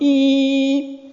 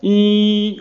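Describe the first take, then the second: First: The sound is at a higher pitch. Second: The sound is at a normal middle pitch. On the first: The car is coming closer. "plus aigu que le bruit réel" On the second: This is the engine's real sound. "Au lieu d'entendre"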